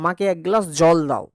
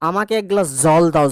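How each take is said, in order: First: জল starts with a sound like English j. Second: জল starts with a sound like English z. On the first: "আমি যদি বলি normal" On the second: "ঘৃষ্ট ব্যঞ্জন করতে হয় তাহলে আমাদেরকে উচ্চারণটা করতে হবে এরকম"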